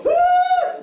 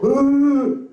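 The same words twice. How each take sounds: First: Very high mock gasp of outrage; booing gasp. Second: High excited mock cheer; cheering gasp. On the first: Comedian mimicking audience outrage at a name, shrill gasp. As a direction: squeal like an offended crowd member. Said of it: "some people go". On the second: Comedian mimicking the fans cheering at the name. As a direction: whoop like a delighted fan. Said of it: "other people go".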